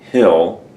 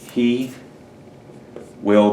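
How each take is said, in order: First: The words are squeezed into one short syllable. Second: Both words are said fully and separately.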